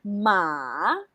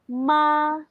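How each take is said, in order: First: The pitch dips down and comes back up. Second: The pitch stays high and level. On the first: It means horse. "using the third tone, just follow the direction of the intonation" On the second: It means mother. "let's use the first intonation. Para kang kumakanta. It's like you're singing"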